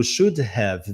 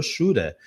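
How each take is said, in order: First: "should have" as two separate words; unreduced "should have"; full should have. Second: "shoulda" as one word with a tapped D; linked "shoulda", H and V gone; reduced shoulda. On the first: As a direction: slowly sound out "should" and "have". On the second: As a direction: squash it into "shura". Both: Shown as a demonstration. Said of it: "O should have virou shoulda".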